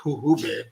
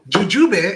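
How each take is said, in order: First: The word is pronounced with Spanish sounds. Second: The word is pronounced with English sounds.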